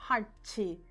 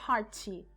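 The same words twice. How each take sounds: Both takes have the same delivery.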